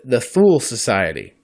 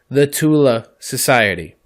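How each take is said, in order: First: The name ends in an L sound. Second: The name ends in a vowel after the L. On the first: The speaker calls it wrong. "I pronounce it" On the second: The speaker calls it right. "This is the exact pronunciation"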